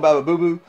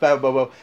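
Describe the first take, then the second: First: The last syllables have long oo vowels. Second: The last syllables have oh vowels. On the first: The speaker calls it wrong. "which I say it wrong" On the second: The speaker calls it right. "but it's Baba Bobo"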